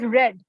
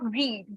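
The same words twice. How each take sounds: First: The vowel is short, like in 'red'. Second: The vowel is long, like in 'reed'. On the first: It is the past tense. The speaker calls it right. "the pronunciation of read goes read, like I have read this book" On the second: It is the present tense. The speaker calls it wrong. "not read"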